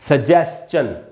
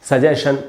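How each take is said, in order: First: The ending is schun, with an s-ch sound. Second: The ending is shun, with no ch sound. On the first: The speaker calls it right. "इसका उच्चारण होगा सजेस्चन" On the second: The speaker calls it wrong. "सजेशन एकदम गलत उच्चारण है"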